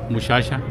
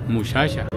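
No difference in how they are said.

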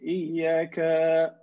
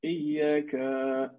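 First: A vowel in the word is held long. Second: The same.

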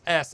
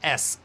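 First: The S sound is soft, almost like a lisp. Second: The S sound is crisp and hard. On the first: "it almost sounds like you have a lisp" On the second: "You'll hear it's pretty crisp, right? It's like it's a real hard S"

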